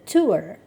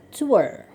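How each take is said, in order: Both takes have the same delivery.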